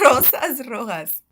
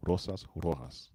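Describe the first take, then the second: First: "Rosas rojas" with trilled r and breathy j; rolled R. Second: Slow "Rosas rojas" with English r; unrolled r. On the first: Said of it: "roll the R". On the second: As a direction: say "Rosas rojas" without the trill. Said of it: "I didn't roll my R's". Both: Shown as a demonstration.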